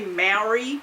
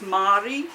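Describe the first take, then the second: First: It is said with an anglicised pronunciation. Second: It is said with the Māori pronunciation. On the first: The speaker calls it wrong. "so so we say Maori" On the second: The speaker calls it right. "apparently it's Māori"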